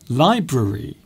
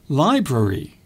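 First: Every syllable of the word is pronounced. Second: The same.

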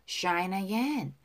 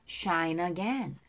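Both takes have the same delivery.

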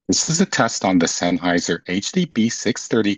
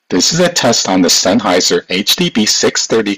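First: The voice is sent with noise removal processing. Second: The voice is sent without noise removal processing. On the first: "with a microphone mode set to noise removal default" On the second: "with a microphone mode set to original sound for musicians"

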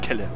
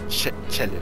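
First: The name starts with a k sound. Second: The name starts with a ch sound. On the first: "Und nicht Kelle" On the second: "Oder Chelle. Nein"

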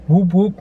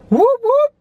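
First: It is said flatly, without enthusiasm. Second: It is said with lively enthusiasm.

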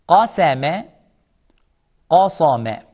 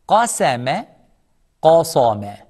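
Both takes have the same delivery.

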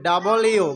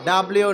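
First: It is said as two full words, double you. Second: It is said as one clipped word, dablyu. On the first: The speaker calls it right. "এটা হবে ডাবল ইউ" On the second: The speaker calls it wrong. "ডাব্লিউ না"

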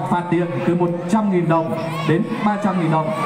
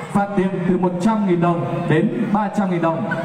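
Both takes have the same delivery.

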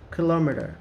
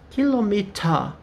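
First: It is said with an American accent. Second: It is said with a British accent.

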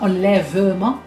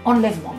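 First: The e after the v is pronounced. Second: The e after the v is silent. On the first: The speaker calls it wrong. "on ne dit pas enlèvement quand on parle" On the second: The speaker calls it right. "on dit enlèvement. Donc c'est un E muet"

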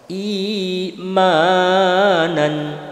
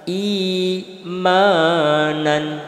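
No difference in how they are said.

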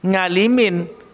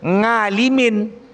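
Both takes have the same delivery.

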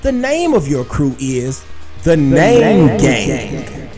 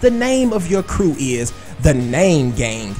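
First: The voice has added echo and reverb. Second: The voice is dry, with no added echo. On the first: The speaker calls it right. "I threw a little echo, a little reverb on your name" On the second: The speaker calls it wrong. "I didn't say it with enough spunk"

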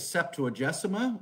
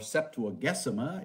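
First: It is said the everyday English way. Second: It is said the classical Latin way.

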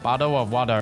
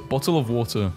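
First: It is said in an American accent. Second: It is said in a non-American accent. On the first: "Americans say it like" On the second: "Find me an American who says"

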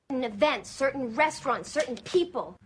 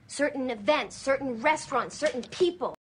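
Both takes have the same delivery.

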